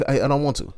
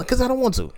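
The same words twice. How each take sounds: First: Mock firm refusal. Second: Pitched-up mock refusal; high refusal. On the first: Retelling his refusal to the kid, in that voice. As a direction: says it in that same voice again. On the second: Retelling his refusal to the kid, in a high voice. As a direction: squeak out the refusal. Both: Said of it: "In that voice".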